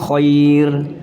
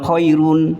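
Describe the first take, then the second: First: The word stops on the final r consonant. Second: The word ends with an added -un syllable. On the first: The speaker calls it right. "ini di wakaf bunyinya khair" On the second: The speaker calls it wrong. "bukan khairun"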